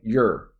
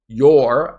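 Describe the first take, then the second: First: The word is said weakly and unstressed. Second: The word is said fully and stressed. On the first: The speaker calls it right. "I say your, because I'm not stressing it" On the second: The speaker calls it wrong. "Notice I don't say your"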